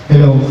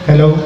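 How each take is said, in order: The two takes are said the same way.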